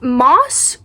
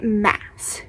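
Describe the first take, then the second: First: The vowel sounds like the one in 'moss'. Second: The vowel sounds like the one in 'mass'. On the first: "Is it Moss or is it Mass?" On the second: "Is it Moss or is it Mass?"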